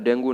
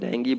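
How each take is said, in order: First: The word ends with an 'oo' sound. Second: The word ends with an 'ee' sound. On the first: The speaker calls it wrong. "डेंगू नहीं बोलना है" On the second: The speaker calls it right. "हमें डेंगी बोलना है"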